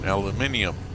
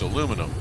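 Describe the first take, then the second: First: The word ends in -nium, with five syllables. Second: The word ends in -num, with four syllables. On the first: The speaker calls it right. "I U M is the proper chemical elemental ending" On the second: The speaker calls it wrong. "even I'm tripping over it"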